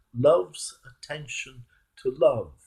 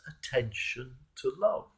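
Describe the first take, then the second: First: Slow savoured repeat. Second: Said in the usual way. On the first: Shown as a demonstration. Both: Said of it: "Isn't that a wonderful phrase?".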